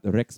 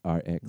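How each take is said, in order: First: It is said as the single word 'rex'. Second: It is said as the two letters R, X. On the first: The speaker calls it wrong. "Not Rex Bandit" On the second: The speaker calls it right. "It's RX"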